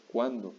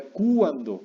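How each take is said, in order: First: Said in the usual way. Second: Cuándo broken up as CÚ-an-do, long stressed u; cuándo said as KOO-an-doh. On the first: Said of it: "porque diría cuándo". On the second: Shown as a demonstration. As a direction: wrongly lean on the u of cuándo. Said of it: "Ni siquiera en la U".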